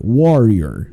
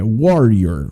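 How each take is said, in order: The two takes are said the same way.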